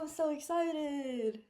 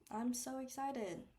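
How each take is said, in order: First: The voice sounds genuinely excited and enthusiastic. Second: The voice sounds flat and not excited. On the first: The speaker really feels excited. "my body language aligned with what I was saying" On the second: The speaker does not really feel excited. "As you could hear from my tone of voice and my body language, I was obviously not that excited"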